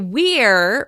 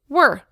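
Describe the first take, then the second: First: The vowel is full and clearly pronounced. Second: The vowel is reduced to an indistinct sound. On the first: The speaker calls it wrong. "We don't say we're" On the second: The speaker calls it right. "we say were"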